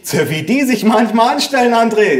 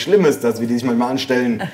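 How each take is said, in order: First: High-pitched mother's grumble; exasperated mother. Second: Said in the usual way. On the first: A narrator's reading. Mother to son about the grandparents, exasperated.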